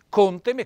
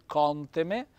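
First: The o vowel is closed. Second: The o vowel is open. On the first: The speaker calls it right. "accento fonico chiuso" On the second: The speaker calls it wrong. "non conteme"

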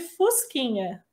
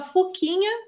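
First: The word is said with the s sound. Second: The word is said without the s sound. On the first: The speaker calls it right. "ao invés de fusquinha" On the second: The speaker calls it wrong. "uma criança que falava fuquinha ao invés de fusquinha"

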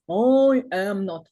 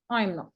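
First: All three words are said separately in full. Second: The first two words merge into one syllable. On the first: "не I am not" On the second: "Вони коротко скажуть I'm not"

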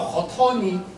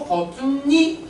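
First: The final n links straight into the ending. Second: The final n is kept and an extra n added. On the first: The speaker calls it wrong. "如果叫连读，就叫好掏你" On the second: The speaker calls it right. "增音，不叫连读"

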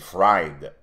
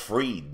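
First: The vowel sounds like 'eye', as in ride. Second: The vowel sounds like 'ee', as in need. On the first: The name is read as it is spelled. "mais c'est Fried" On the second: This is how the people themselves say the name. "ils prononcent Freed"

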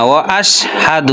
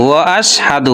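The two takes are said the same way.

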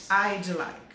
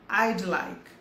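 Both takes have the same delivery.

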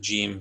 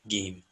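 First: The word begins with a J sound. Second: The word begins with a hard G sound. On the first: This is the usual pronunciation. "the Jim becomes a Gim" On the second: This is how it is said in Egypt. "even in Egypt, the Jim becomes a Gim"

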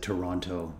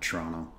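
First: The name is said the way outsiders say it. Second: The name is said the way locals say it. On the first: The speaker is not from the city. The speaker calls it wrong. "You know he's not from Toronto because he said Toronto" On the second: The speaker is from the city. The speaker calls it right. "and not Toronto"

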